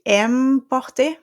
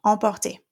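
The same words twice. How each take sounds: First: Emporter with an English em sound; anglicised French; wrong English take. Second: Emporter with open nasal en, no M; French nasal. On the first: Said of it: "I'm not gonna say". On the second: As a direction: drop jaw for Emporter. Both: Shown as a demonstration.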